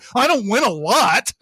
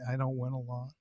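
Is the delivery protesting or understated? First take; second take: protesting; understated. First: It is said in an insistent, protesting way. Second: It is said in a quiet, understated way. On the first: The speaker calls it wrong. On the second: The speaker calls it right.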